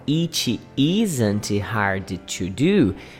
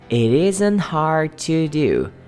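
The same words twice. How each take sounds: First: Each word is said separately, without linking. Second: The words are linked together in one flow. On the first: The speaker calls it wrong. "Em vez de falar" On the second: The speaker calls it right. "você linka"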